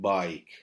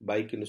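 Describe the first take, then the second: First: The vowel is stretched as a gliding aai. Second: The vowel is short and clipped. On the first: The speaker calls it right. "கொஞ்சம் அதை நீட்டி சொல்லணும்" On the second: The speaker calls it wrong. "பைக்னு சொல்லாம"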